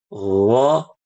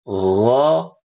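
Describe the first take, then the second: Both takes have the same delivery.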